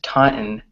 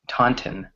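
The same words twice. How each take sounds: First: The T sounds are softened or dropped. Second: The T sounds are clearly pronounced. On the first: "Taunton in American English" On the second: "British people just say Taunton, or they actually pronounce the T's"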